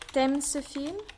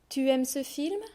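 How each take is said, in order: First: The u of tu is dropped. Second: The word tu is said in full. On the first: This is the casual spoken form. "I'm going to drop the U" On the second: This is the careful reading form. "I'm going to read the sentences"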